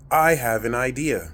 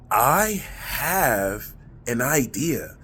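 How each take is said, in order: First: It is said plainly, without added feeling. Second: It is said with heartfelt, emotional feeling. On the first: It is just a passing thought. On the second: The thought is being felt deeply.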